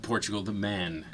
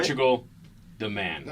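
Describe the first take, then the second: First: It is said quickly with no real pause. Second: There is a long pause after the first word. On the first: The speaker calls it wrong. "I said it a little too quickly" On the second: The speaker calls it right. "there has to be that like pregnant pause there"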